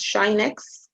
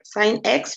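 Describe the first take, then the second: First: "shine x" with an opening sh sound; sinh as "shine". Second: Said in the usual way. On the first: Shown as a demonstration. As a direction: pronounce it "shine x", sh at the front. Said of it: "which we pronounce as shine x". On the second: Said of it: "which we pronounce as".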